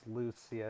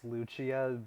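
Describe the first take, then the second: First: The name is said with a Spanish pronunciation. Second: The name is said with an Italian pronunciation. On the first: "it's pronounced Lucia in Spanish" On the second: "in Italian her name's pronounced Lucia"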